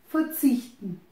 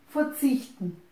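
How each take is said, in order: The two takes are said the same way.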